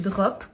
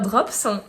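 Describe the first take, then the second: First: The word ends without an S sound. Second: The word ends with an S sound. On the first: The speaker calls it wrong. "à chaque fois je prononce pas le S" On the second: The speaker calls it right. "donc on prononce le S"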